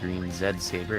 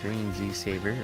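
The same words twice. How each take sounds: First: The name is said with non-American pronunciation. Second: The name is said with American pronunciation.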